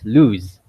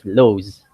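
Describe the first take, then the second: First: The vowel is an 'oo' as in news. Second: The vowel is a long 'o' as in nose. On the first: The speaker calls it right. "You pronounce the English word as lose" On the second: The speaker calls it wrong. "you don't really say it as lows"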